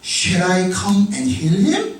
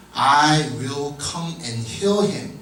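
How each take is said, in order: First: Slow question, "heal him" swinging sharply up; careful, slow "Shall I" rising into a question; question reading. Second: Slow, measured "I will come and heal him"; statement reading. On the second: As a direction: state "heal him" without a questioning leap. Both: Shown as a demonstration. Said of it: "질문문으로 나오는 것들이 있어요".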